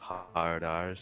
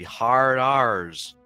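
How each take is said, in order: First: The R is pronounced normally. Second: The R is heavily exaggerated, strongly American. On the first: "instead of hard R's" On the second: "I'm gonna really accentuate the American accent"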